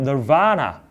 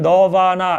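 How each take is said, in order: First: The stress falls strongly on the second syllable. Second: All syllables are said evenly with no stress. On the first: The speaker calls it right. "영어의 억양은 널바나. 두 번째 강세가 있는 겁니다" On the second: The speaker calls it wrong. "우리는 너바나 이렇게 있잖아요"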